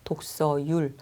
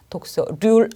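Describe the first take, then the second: First: The last syllable begins with a y sound. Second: The last syllable begins with an r sound. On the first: The speaker calls it right. "독서율이 맞습니다" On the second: The speaker calls it wrong. "독서률 아니에요"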